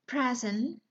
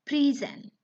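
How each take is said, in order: First: "Present" as the noun, PREZ-ent; short e in "Present", stressed at the front; stress on first syllable. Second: "present" as the verb, pree-ZENT, higher and louder; long ee in "present", verb pronunciation; stress as verb. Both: Shown as a demonstration. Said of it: "the next example".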